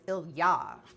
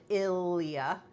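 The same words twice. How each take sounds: First: The name is said with Russian stress. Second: The name is said with English stress. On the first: The speaker calls it right. "but it's Ilya" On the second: The speaker calls it wrong. "we pronounce it Ilya in English"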